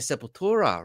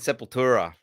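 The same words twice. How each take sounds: First: The name is said with its original pronunciation. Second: The name is said with an Australian pronunciation. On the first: This is how the band itself says it. "they actually say Sepultura" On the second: This is how locals said it before knowing better. "the Australian way of saying Sepultura"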